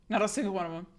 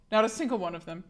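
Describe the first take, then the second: No difference in how they are said.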